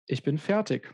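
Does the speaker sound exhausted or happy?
exhausted. It is said in a tired, exhausted tone. The speaker is worn out after finishing. "whether I'm exhausted about the thing I did"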